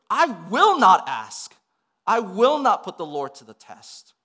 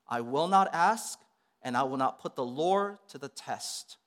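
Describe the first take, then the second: First: It is said in a frustrated, angry tone. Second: It is said in a calm, pious tone.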